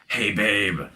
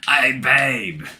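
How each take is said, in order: First: It is said in his normal accent. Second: It is said in an Australian accent.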